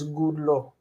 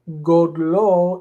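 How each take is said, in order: First: The first vowel sounds like u. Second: The first vowel sounds like o. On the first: "it says gudlo" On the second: "instead of godlo"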